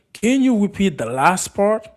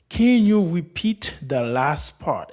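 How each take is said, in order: First: Said in the usual way. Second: Very slow model question, falling end; slow repeat. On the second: Shown as a demonstration. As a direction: repeat it word by word for learners. Slower repeat for learners.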